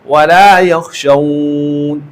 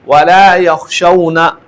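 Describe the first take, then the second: First: The last word ends on a consonant, vowel held long. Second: The last word ends with a short final vowel. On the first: The speaker calls it right. "तीन अलिफ की मिक़दार में मत करेगा" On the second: The speaker calls it wrong. "इस तरह वक़फ़ नहीं करेगा"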